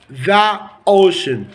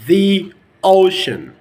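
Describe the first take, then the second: First: 'The' has a short 'uh' vowel. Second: 'The' has a long 'ee' vowel. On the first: The speaker calls it wrong. "Totally wrong" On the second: The speaker calls it right. "In the American accent, we say the ocean"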